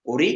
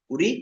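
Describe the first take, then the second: First: ওরি starting on a clear "o" vowel; teacher's contrast, ওরি said with O. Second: উরি starting on a short "u" vowel; teacher's contrast, উরি said with U. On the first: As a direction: make the first sound of ওরি "oh", not "oo". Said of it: "আর যেটা ও". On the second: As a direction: make the first sound of উরি "oo", not "oh". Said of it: "উ যেটা রস্য উ". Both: Shown as a demonstration.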